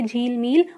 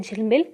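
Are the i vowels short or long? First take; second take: long; short. First: The i vowels are long. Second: The i vowels are short. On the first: The speaker calls it wrong. "अगर बड़ी ई का प्रयोग कर दिया गया ... जो कि गलत है" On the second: The speaker calls it right. "छोटी ई की मात्रा वाले शब्द का उच्चारण जल्दी किया जाता है"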